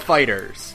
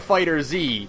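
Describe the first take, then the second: First: The name ends in a plain 's' sound. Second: The name ends in a separate 'zee' sound. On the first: This is the official pronunciation. "Namco Bandai has said it's Fighters" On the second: This avoids sounding like the genre name. "so I call it Fighter Z"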